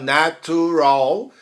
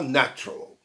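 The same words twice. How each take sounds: First: "natural" in three full syllables, na-tu-ral; unreduced, careful "natural". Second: "natural" contracted to na-tral; two quick beats on "natural"; fast two-syllable natural. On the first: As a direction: say "natural" the longer way, with "tu". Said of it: "é mais complicado falar". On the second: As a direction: say "natural" quickly, skipping the middle vowel. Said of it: "quer falar rápido". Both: Shown as a demonstration.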